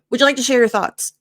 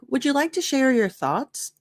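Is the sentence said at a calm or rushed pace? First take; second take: rushed; calm. First: The sentence is said quickly and rushed. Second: The sentence is said at a calm pace. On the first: The speaker calls it wrong. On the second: The speaker calls it right.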